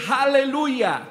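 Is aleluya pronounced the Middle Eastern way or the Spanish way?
Middle Eastern. It is pronounced the Middle Eastern way. This is how people say it in the Middle East. "allá en otros países, en el Medio Oriente"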